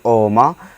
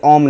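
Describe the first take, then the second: First: The word ends with a drawn-out final vowel. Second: The word ends sharply on the consonant. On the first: The speaker calls it right. "इसको पढ़ेंगे ओमा" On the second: The speaker calls it wrong. "इसको ओम नहीं पढ़ेंगे"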